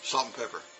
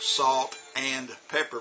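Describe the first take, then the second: First: The word and is reduced and linked. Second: Every word is said fully and clearly. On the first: "we go" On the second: "instead of going like"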